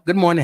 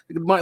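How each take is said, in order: First: It is said warmly, with enthusiasm. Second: It is said grudgingly, without enthusiasm.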